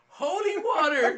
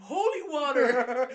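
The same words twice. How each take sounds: First: Loud, slow and higher yell. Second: Louder, slow, laughing through the words. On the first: Face to the wall, yelling at the cops, loud. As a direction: shout it with the jug held up. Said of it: "I just kept yelling". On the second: Retelling answering the cops at church, laughing slowly. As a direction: crack up as you say it. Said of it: "He's like". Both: Retold or imitated.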